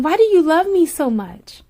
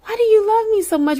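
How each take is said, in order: First: A little higher, asking him in wonder; half-scared question, slightly raised; anxious disbelieving plea. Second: Much higher and faster, almost squeaking; pleading disbelief. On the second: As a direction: push the repeat up into a rushed, high plea. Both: Retold or imitated. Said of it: "how I was just scared and how I would ask him".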